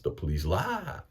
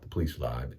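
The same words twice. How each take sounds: First: It is said excitedly, with an exclamation. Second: It is said flatly, without excitement.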